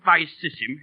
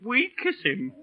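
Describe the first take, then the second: First: The word begins with a V sound. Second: The word begins with a W sound. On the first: This is the traditional pronunciation. The speaker calls it right. "instead of" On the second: This is the new school pronunciation. The speaker calls it wrong. "you'd make 'em say"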